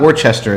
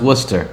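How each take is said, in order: First: The name is said fully, following its spelling. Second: The name is said in a short, clipped form. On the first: Outsiders would say it this way from the spelling. The speaker calls it wrong. "as we Californians would pronounce it based upon the spelling" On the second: This is how the name is really said. The speaker calls it right. "it's pronounced Worcester"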